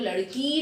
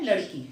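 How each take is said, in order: First: The final vowel is stressed and drawn out. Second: The final vowel is short and plain. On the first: The speaker calls it wrong. "छोटी ई में जोर दे के थोड़ा सा बोलते खींच के, तो लड़की नहीं होता" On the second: The speaker calls it right. "हम क्या बोलते हैं लड़की, साधारण रूप में हम"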